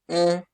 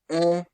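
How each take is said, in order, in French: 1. La voyelle est ouverte, comme dans père. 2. La voyelle est ouverte, comme dans père.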